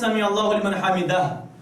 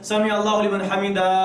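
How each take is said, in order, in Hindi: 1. आखिरी शब्द 'h' ध्वनि पर खत्म होता है। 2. आखिरी शब्द खुले 'a' स्वर पर खत्म होता है। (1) "इमाम साहब ने पढ़ना है" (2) "ये सही नहीं है"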